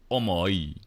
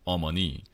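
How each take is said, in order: First: "omoi" with the N dropped, gliding into "ee"; sing-songy Busan form. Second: "omoni" with the N clearly said; standard Korean. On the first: Imitating Busan speech for mother, sing-songy "omoi". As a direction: lilt through "omoi" without any N. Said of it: "it sounds more sing-songy to me". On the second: Giving the Korean word for mother, standard "omoni". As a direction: say "omoni" in three full, even parts. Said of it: "in Korean, you, to say, like, mom or mother". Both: Shown as a demonstration.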